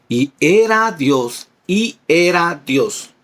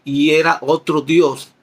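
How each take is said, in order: First: Y era Dios, y era Dios read slowly, each word weighed; slow emphatic reading. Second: Y era otro Dios, slowly, with otro set apart; stressing the wrong version. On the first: Teacher stresses the true verse reading to his class, slow and firm. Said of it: "Porque los testigos de Jimán, ellos ponen ahí". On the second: Teacher quotes the Witnesses' altered verse, slow and pointed. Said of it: "ellos ponen ahí". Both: Shown as a demonstration.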